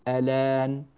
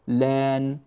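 First: The word begins with a short vowel before the L. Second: The word begins directly with the L sound. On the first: "يجوز أن نبدأ بالألف" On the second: "أو نبدأ باللام"

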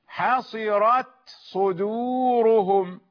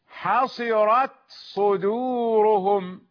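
Both takes have the same delivery.

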